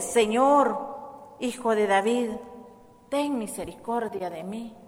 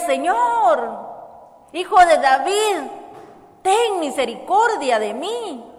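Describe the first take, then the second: First: It is said in a calm speaking voice. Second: It is shouted loudly and urgently.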